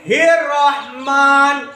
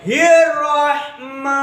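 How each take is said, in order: First: हिर्रहमान slowly, closing on a sounded final "n"; closed with noon. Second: हिर्रहमा slowly, ending on a long open "maa"; open ending, no noon. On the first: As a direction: end हिर्रहमान on "maan", the n audible. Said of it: "ऐसा नहीं पढ़ेंगे". (हिर्रहमान के आख़िर में नून की आवाज़ के साथ) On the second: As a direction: draw out हिर्रहमा, leaving off any final n. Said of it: "तो कैसा पढ़ेंगे". (हिर्रहमा के आख़िर में नून के बिना लंबा "मा") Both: Shown as a demonstration.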